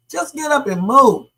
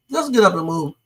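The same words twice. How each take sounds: First: Louder and higher, insistent; emphatic repeat. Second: Said in the usual way. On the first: Shown as a demonstration. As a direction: press it home this time: get up and move. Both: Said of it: "What's the point of having this conversation?".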